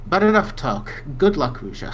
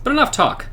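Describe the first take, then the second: First: Firm NPC line. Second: Much higher mock-heroic take; hammed-up echo. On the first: Acted. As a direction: cut the talk short. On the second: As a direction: parody the NPC line grandly. Mocking repeat of NPC line.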